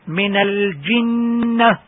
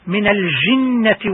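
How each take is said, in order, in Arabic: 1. صوت الجيم مجهور تماما دون نفس. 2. صوت الجيم مهموس مع جريان الهواء. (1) "الصح من الجنة" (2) "هذا لحن وخطأ"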